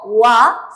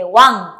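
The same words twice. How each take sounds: First: "wa" cut open, with no final nasal; teacher showing the wrong "wa"; wrong pronunciation. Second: "wan" closed with a ringing ng in the throat; teacher modelling the right "wan"; correct pronunciation. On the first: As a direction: demonstrate the mistake: "wa" with the ending dropped. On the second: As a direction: give "wan" a full nasal finish, resonant in the throat. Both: Shown as a demonstration. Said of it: "No wa, sino que wan".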